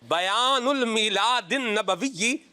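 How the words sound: It is said in a marked, orator-like style. "मैं असल में इसमें जो है ना वो एक्सेंट ले रहा हूँ"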